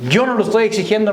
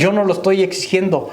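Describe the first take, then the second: First: Repeated with the weight moved to Yo; stress on YO. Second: NO stressed, falling at the end; first take, pressing the no. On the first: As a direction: hit the word Yo, I am not the one. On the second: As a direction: lean on the word no. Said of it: "lo exige la palabra de Dios". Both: Real, not acted.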